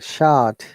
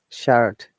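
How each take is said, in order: First: The r sound is dropped. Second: The r sound is pronounced. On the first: "but we don't pronounce R sound" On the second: "Americans will obviously pronounce the letter R"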